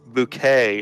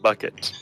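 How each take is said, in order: First: The name sounds like the word bouquet. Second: The name sounds like the word bucket. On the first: The owner is putting on aristocratic airs. "you might decide you're going to pronounce it bouquet" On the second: The name is read the obvious way it is spelled. "instead of bucket"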